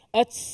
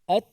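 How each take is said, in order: First: The final t ends with a hissing s-like release. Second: The final t ends with a light, brief breath. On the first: The speaker calls it wrong. "Bukan ats, bukan" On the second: The speaker calls it right. "mana datang suara tertahan dahulu... baru datang hamasnya"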